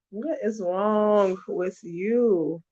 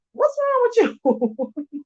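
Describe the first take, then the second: First: Said in the usual way. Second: High, slow mock-shocked "What's wrong with you?"; exasperated disbelief. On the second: Vlogger mocking a kid's baby talk, shocked high voice. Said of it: "I'm like".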